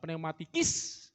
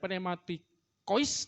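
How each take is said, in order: First: The ending is pronounced with an 'ee' sound. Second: The ending is pronounced with an 'oy' sound. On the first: "bacanya itu I ya" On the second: "tulisannya O I"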